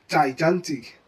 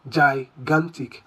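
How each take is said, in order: First: Both G letters get the same sound. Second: The two G letters get different sounds. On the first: The speaker calls it wrong. "the two G's are mistakenly pronounced with the same sound" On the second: The speaker calls it right. "The first G should be pronounced as G, while the subsequent one is pronounced as G"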